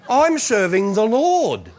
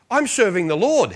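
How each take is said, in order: First: "serving the Lord" slow and drawn out; emphatic repeat. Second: Said in the usual way. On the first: Retold or imitated. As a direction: stretch "I'm serving the Lord" into a resolute declaration.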